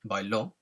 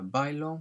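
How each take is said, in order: First: The stress is on the last syllable. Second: The stress is on the first syllable. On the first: Someone else danced, in the past. "with the accent" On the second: I dance, in the present. "without an accent means I dance"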